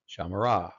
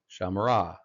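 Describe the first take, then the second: Both takes have the same delivery.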